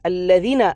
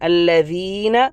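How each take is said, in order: First: The middle vowel is cut short. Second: The middle vowel is held for two counts. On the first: The speaker calls it wrong. "അല്ലദീന എന്നാക്കിയാൽ ശരിയാവുകയില്ല" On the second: The speaker calls it right. "ഇവിടെ യാ എന്ന മദ്ദിൻ്റെ അക്ഷരമാണ്"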